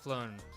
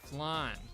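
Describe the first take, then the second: First: The vowel sounds like the one in 'own'. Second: The vowel sounds like the one in 'can'. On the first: The speaker calls it wrong. "not flown" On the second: The speaker calls it right.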